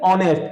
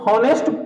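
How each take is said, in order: First: The word begins with a vowel, h silent. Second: The word begins with an audible h sound. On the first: The speaker calls it right. "H हमारा silent है" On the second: The speaker calls it wrong. "इसको हम हॉनेस्ट तो पढ़ेंगे नहीं"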